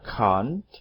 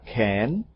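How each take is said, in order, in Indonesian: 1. Diucapkan dengan aksen Inggris. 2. Diucapkan dengan aksen Amerika. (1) "Orang Inggris mengucapkannya can't" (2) "Orang Amerika can't"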